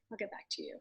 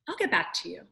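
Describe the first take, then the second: First: "I'll get back to you" said much softer, trailing away; a fading, much softer echo; softer repeat. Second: Said in the usual way. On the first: Retold or imitated. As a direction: repeat it almost under the breath. Hesitant reply quoted twice.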